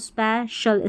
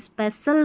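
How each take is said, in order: First: The middle consonant is an sh sound. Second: The middle consonant is an s sound. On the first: The speaker calls it right. "सी आई और T I को हम श पढ़ते हैं" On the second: The speaker calls it wrong. "स्पेशल नहीं बोलेंगे"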